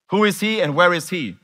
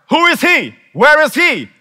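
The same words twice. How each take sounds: First: Said in the usual way. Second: High, loud outraged shout; shouted royal demand; king's furious demand. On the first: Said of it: "It's actually acrostic for". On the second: Acted. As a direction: bellow it like the angry king. King's demand repeated as acrostic.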